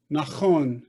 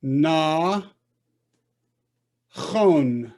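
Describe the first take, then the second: First: "Nachon" as one connected word; whole word, "Nachon", no gap; syllables joined. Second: "Na" held, long pause, then "chon"; two isolated beats, "Na" and "chon"; split into syllables. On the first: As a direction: blend "Na" straight into "chon". Teacher blending the word. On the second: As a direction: sound out "Na ... chon" slowly. Teacher sounding out, then blending. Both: Shown as a demonstration.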